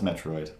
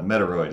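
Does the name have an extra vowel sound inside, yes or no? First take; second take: no; yes. First: The name is said without an extra inserted vowel. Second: The name is said with an extra inserted vowel. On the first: "I know it's Metroid" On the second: "Metoroid is is super fun"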